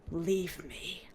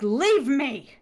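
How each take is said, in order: First: Low, quiet, pained prince voice; weak prince. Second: Louder, commanding repeat of Leave me; firm order. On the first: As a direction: mutter it like a wounded man. Wounded prince tells her leave. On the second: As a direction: insist on it as an order. Prince repeats his order. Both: Retold or imitated.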